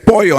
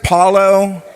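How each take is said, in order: First: It is pronounced the Spanish way. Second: It is pronounced in a mangled, anglicized way. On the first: The speaker calls it right. "it says it's pollo" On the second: The speaker calls it wrong. "everybody pronounces the names wrong"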